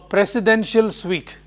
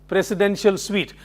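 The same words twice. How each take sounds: The two takes are said the same way.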